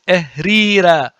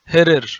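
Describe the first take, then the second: First: The word starts with a vowel sound. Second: The word starts with an h sound. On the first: This is the pronunciation known from Coptic. The speaker calls it right. "It is ehrira or ehriri" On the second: People who read hieroglyphs without Coptic say it this way. The speaker calls it wrong. "they say it hirir, but it's not hirir"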